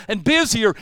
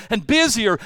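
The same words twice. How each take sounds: The two takes are said the same way.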